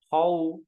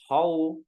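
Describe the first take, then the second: The two takes are said the same way.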